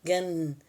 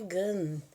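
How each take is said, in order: First: The word ends in a nasal vowel sound. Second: The same.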